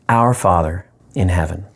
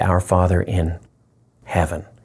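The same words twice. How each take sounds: First: The stress falls on the word our. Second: The stress falls on the word heaven.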